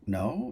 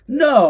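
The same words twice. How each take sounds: First: The voice rises at the end, like a question. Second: The voice falls at the end, like a statement. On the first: The speaker calls it right. "I'm more like no, like a question" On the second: The speaker calls it wrong. "instead of no"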